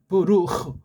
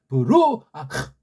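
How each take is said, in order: First: The middle vowels are clipped into a short word. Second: The middle vowels are drawn out into separate syllables. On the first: The speaker calls it right. "우린 발음이 돼요" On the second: The speaker calls it wrong. "답답하죠"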